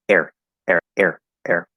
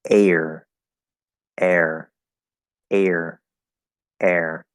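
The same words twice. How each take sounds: First: The words are said quickly. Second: The words are said slowly and clearly. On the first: "if I just say these quickly" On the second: "if I try to pronounce them nice and clearly"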